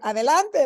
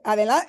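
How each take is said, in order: First: The word is said in a forceful, urgent way. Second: The word is said in a calm, neutral way. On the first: "It's how you say it. Adelante, like move your butt" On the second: "you could say adelante"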